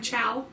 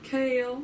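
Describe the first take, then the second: First: The name is said like 'Chow'. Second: The name is said like 'Kale'. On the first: The speaker calls it wrong. "that's what I called him the entire series" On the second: The speaker calls it right. "her actual pronunciation guide of the names, and it's fucking Kale"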